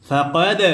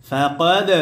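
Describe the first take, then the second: The two takes are said the same way.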